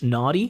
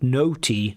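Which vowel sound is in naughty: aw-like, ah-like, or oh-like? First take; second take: ah-like; oh-like. First: The first vowel is an open American ah sound. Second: The first vowel sounds like the vowel in 'phone'. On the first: The speaker calls it right. "or in American English" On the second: The speaker calls it wrong. "you were like putting the O, the phone sound"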